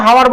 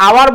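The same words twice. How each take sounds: First: "হাওয়ার" with the h pronounced; H sounded. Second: "আওয়ার" opening on the vowel, no h; silent H. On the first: Teacher shows class the unused form, "হাওয়ার" with h. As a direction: start "হাওয়ার" on an audible h. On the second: Teacher gives class another example, "আওয়ার" with silent h. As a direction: drop the h in "আওয়ার". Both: Shown as a demonstration. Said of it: "আওয়ার বলি না হাওয়ার বলি".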